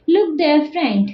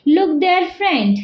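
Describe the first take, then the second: First: Teacher demo stressing look. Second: There punched, the rest light; teacher demo stressing there. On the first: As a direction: look punched, the rest light. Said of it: "look, not go or do something other action". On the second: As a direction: hit the word there so it means that place, not here. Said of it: "look there, not here or somewhere else". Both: Shown as a demonstration.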